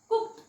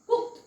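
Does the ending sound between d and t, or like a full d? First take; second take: between d/t; between d/t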